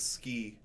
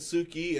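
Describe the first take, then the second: First: The vowel after the s is dropped. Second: The vowel after the s is fully pronounced. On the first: The speaker calls it right. "it's essentially just ski" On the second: The speaker calls it wrong. "she said Suki"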